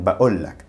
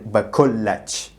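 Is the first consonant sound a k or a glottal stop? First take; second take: glottal stop; k. First: It has a glottal stop and ends in k. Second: It has a k sound and ends in ch. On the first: This is how people in towns and cities say it. "In towns and cities, though, the common pronunciation is as a hamza" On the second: This is how people in villages say it. "a village accent"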